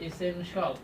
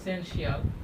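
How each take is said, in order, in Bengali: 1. শেষাংশটি এক দলে বলা হয়, 'shul'। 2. শেষাংশটি দুই দলে বলা হয়, 'shee-al'। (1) "এটা হবে কি? ইসেনশল" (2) "আমরা যেটা বলি, আমরা কি বলি? ... কিন্তু নট ইসেনশিয়াল"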